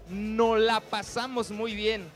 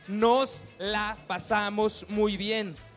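First: The final s of the first word is dropped. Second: The final s of the first word is pronounced. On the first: The speaker calls it wrong. "No está bien dicho" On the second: The speaker calls it right. "Es nos la pasamos muy bien"

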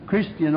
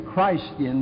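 First: The first syllable sounds like 'Kris'. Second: The first syllable sounds like 'Christ'. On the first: The speaker calls it wrong. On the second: The speaker calls it right.

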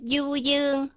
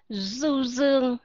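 First: It is said in a Southern Vietnamese accent. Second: It is said in a Northern Vietnamese accent. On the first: "đọc trong âm của tiếng người miền Nam mà không phải là âm của người miền Bắc" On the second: "các bạn đọc ra âm Z, là các bạn đọc là du dương"

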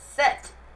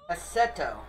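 First: The name is one syllable ending in a t. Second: The name ends with an added o vowel.

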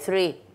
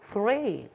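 First: Three is said with a Spanish-style pronunciation. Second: Three is said with an English-style pronunciation. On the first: The speaker calls it wrong. "Si yo digo, por ejemplo, three" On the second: The speaker calls it right. "Mamá, no. Three"

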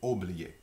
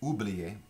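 First: The first vowel is an 'o' sound. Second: The first vowel is an 'oo' sound. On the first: This is the local regional form. "we say oublier" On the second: This is the international form. "we don't say oublier, the international word"

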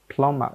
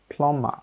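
First: The b in the middle is silent. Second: The same.

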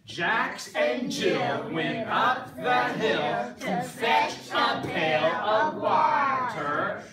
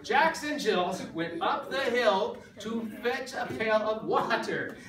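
First: It is said very slowly. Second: It is said at normal speed.

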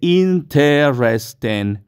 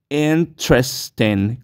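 First: The word is said with four syllables. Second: The word is said with three syllables. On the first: The speaker calls it wrong. "No se dicen cuatro sílabas, no se dice interesting" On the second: The speaker calls it right. "como si fueran únicamente tres sílabas"

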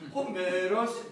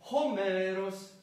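First: The pitch rises again a little later on. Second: The pitch has one rise with no later rise.

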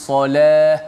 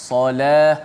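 The two takes are said the same way.

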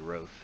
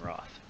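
First: The vowel sounds like the 'o' in cloth. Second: The vowel sounds like the 'a' in cat. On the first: The speaker calls it right. "It's probably Roth" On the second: The speaker calls it wrong. "That's not how you pronounce it. But I don't know how to say it, so I'm saying Wrath"

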